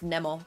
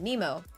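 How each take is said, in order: First: The name is said in a French way. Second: The name is said in an English way. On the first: This is how the name is said in France and Finland. "when I was living in France and in living in Finland, it was always pronounced Nemo" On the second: This is how the name is said in Canada. "when I moved to uh like Canada that people actually started pronouncing it Nemo"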